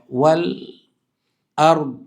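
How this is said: There is a pause between the two words. "Jadi ada ada jeda"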